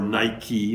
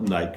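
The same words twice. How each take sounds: First: It is said the American way. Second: It is said the British way.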